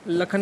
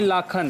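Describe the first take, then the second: First: The first vowel is short. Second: The first vowel is long. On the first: The speaker calls it wrong. "लखन नहीं" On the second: The speaker calls it right.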